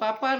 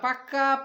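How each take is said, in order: First: The second consonant is a p sound. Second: The second consonant is a k sound. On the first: The speaker calls it wrong. "পাপা না" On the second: The speaker calls it right. "পাকা পেঁপে খাই"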